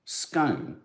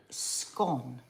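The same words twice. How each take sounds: First: Scone rhyming with cone; scone with long o. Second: Scone rhyming with gone; scone with short o. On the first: Teasing co-host with scone, long o. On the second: Correcting co-host, scone with short o. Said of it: "don't say scone". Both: Shown as a demonstration.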